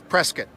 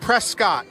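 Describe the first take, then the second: First: It is pronounced the way local people say it. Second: It is pronounced the way the spelling suggests. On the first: The speaker calls it right. "The local pronunciation and the correct pronunciation is Prescott" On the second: The speaker calls it wrong. "you look at it, it looks like Prescott. Boy, don't say that when you're around here"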